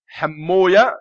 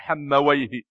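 First: The name is said with a -wiya ending. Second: The name is said with a -wayh ending. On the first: This is how hadith scholars pronounce it. "المحدثون ينطقونها حموية" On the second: This is how Arabic grammarians pronounce it. "وأهل العربية ينطقونها حمويه"

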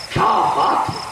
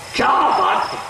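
First: It is said with amazement and admiration. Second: The same.

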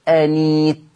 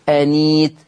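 The two takes are said the same way.

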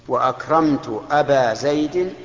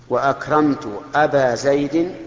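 The two takes are said the same way.

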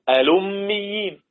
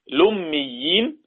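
First: The word starts with a glottal stop and vowel. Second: The word starts directly with an L sound. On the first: "يبقى في الوجهين" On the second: "ممكن أستغني عن همز الوصل"

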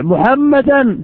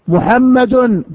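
First: The word ends with an a-vowel sound. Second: The word ends with a u-vowel sound. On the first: The word is in the accusative case. "تعرف أن حكمها النصب" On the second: The word is in the nominative case. "تعرف أن حكمها الرفع"

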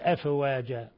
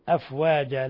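First: The silent fa gets a slight vowel-like bounce. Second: The silent fa is held still without bounce. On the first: The speaker calls it wrong. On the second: The speaker calls it right.

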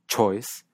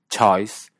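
First: The diphthong starts with a closed vowel. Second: The diphthong starts with an open vowel. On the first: "lo pronuncie con una vocal cerrada" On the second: "pronuncie el diptongo de choice con una vocal abierta"

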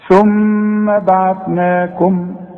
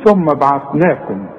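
First: The doubled m is held with a nasal hum. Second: The doubled m is clipped short without nasal hum. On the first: The speaker calls it right. "الميم غنها ما دام عليها الشدة" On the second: The speaker calls it wrong. "ما تقولش ثم بعثناكم"

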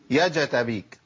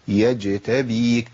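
First: The j is followed by a full a vowel. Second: The j has only a light echoing bounce. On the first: The speaker calls it wrong. "هجيب حركه فتح كامله، اقول يا جتابيك ... ما ينفعش كده" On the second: The speaker calls it right. "نتيجه اهتزاز المخرج بينتج ذيول صوتيه لطيفه"

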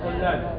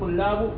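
First: The word ends with a short i vowel. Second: The word ends with a short u vowel. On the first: The word follows a preposition. "مرة نقول إيش طلاب" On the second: The word is the subject of the verb. "مرة نقول طلاب"

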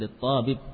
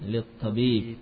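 First: The vowel in tabib is cut short. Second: The vowel in tabib is held long. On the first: The speaker calls it wrong. "bukan littabib" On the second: The speaker calls it right. "tabib yang panjang"

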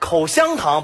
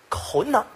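First: Every syllable is pronounced clearly. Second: A middle syllable is swallowed and merged.

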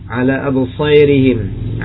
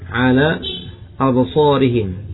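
First: The long vowel leans toward an 'e' sound. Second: The long vowel is a plain open 'a'.

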